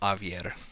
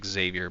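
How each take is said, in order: First: The name starts with no X sound. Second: The name starts with a pronounced X sound. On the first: This is the speaker's own preferred way. "The X is silent" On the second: This is how most people say it. "everybody calls him Xavier"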